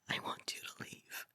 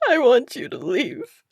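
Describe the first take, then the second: First: It is whispered softly. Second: It is said in a crying voice.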